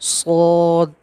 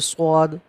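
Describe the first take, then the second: First: The name is said heavy, with a full mouth. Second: The name is said light, with a thin mouth. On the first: The speaker calls it right. "इसको भी हम मुंह भर के पढ़ेंगे" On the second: The speaker calls it wrong. "स्वाद वो गलत"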